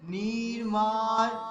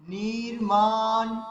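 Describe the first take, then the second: The two takes are said the same way.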